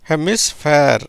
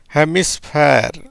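First: Said in the usual way. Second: ஹெமிஸ்பேர் spoken slowly, each part clear; slow demo. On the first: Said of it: "அப்படின்ற உச்சரிப்புல வருது". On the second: Shown as a demonstration. Teacher demonstrating the word to students, slow and clear. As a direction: model ஹெமிஸ்பேர் slowly for the learners. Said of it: "எப்படி வருது?".

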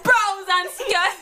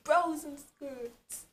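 First: Slow drawn-out laughing Jamaican phrase; Jamaican accent. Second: Put-on Jamaican accent. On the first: Pretend. Friend asked for Jamaica, slow laughing Jamaican phrase. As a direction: stretch it out slowly in patois.

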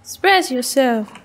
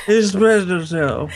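First: Unenthusiastic. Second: Mock unenthusiastic. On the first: Real, not acted. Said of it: "Very unenthusiastic". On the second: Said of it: "It's just the way you say it".

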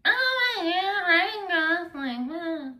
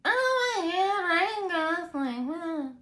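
First: High, breathless swooning gush; gushing fangirl. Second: High, slow swooning fan voice; gushing fangirl. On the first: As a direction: squeal his name like a smitten fan. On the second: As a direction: gush over him like a starstruck fan. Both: Pretend. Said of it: "Can you do that one more time?".

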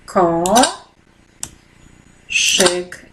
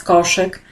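First: "ko-, szyk" said as two separate syllables with a long pause between; split into syllables. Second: Said in the usual way. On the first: Shown as a demonstration. Teacher shows pupils the syllables of a word, "ko-, szyk" split apart. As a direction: break "ko-, szyk" into its syllables slowly. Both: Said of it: "I wyszedł nam wyraz koszyk".

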